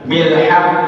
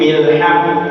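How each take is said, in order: Both takes have the same delivery.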